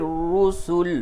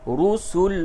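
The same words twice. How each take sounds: No difference in how they are said.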